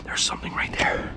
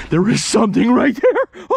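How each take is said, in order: First: Real whisper, quick; hushed, hurried discovery. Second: Loud excited repeat, rising at the end; full-voiced thrilled announcement. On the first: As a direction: whisper the sighting under your breath. Spots something in the dark. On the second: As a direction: burst out with the discovery. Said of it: "I just got excited". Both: Real, not acted.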